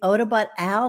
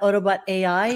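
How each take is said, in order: First: The last word is said as one syllable, 'Al'. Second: The last word is said as two letters, 'A-I'. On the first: The speaker calls it right. "That's a lowercase L at the end of my name" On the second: The speaker calls it wrong. "not Autobot AI"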